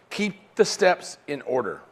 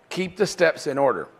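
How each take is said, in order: First: Slow, deliberate, every word weighted; slow emphatic. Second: Said in the usual way. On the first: Shown as a demonstration. Coach drilling the key rule, slow and emphatic. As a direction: spell it out slowly so it sticks.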